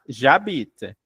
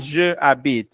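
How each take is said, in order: First: The vowel of je is dropped and joined. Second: The vowel of je is pronounced separately. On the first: The speaker calls it right. "eu vou falar j'habite" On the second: The speaker calls it wrong. "Eu não vou falar je habite"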